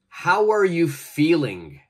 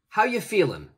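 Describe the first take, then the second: First: Every word is said fully and clearly. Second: 'Are you' blends together and the final G drops.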